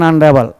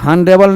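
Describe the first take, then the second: First: The word begins directly with a vowel. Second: The word begins with an h sound. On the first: The speaker calls it right. "अनडेबल आ से बोलते हैं" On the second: The speaker calls it wrong. "हनडेबल नहीं बोलते"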